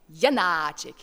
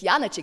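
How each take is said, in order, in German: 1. Der mittlere A-Laut wird lang gesprochen. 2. Der mittlere A-Laut wird kurz gesprochen. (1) "die langen müssen ganz, ganz klar lang sein, wie zum Beispiel auch Janacek" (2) "Janacek sagen in Deutschland, oder? Sagt man normalerweise. Ist eigentlich falsch"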